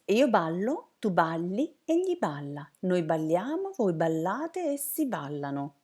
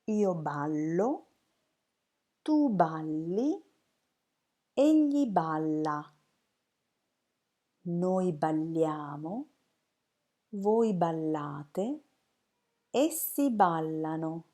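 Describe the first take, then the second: First: It is said very quickly. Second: It is said slowly and carefully.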